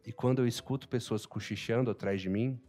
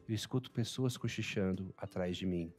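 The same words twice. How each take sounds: First: Said in the usual way. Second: Soft, low, understated suggestion; low aside. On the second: Shown as a demonstration. Teacher giving an utilization example, low aside. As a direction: drop softly and low.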